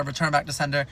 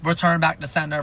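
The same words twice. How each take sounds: First: Said in the usual way. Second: Mock-shout the demand like an angry toddler; mild mock yell. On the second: Toddler yelling at parents about the twins, mild mock yell. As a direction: Return punched in a mild retold yell. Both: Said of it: "yelling, like".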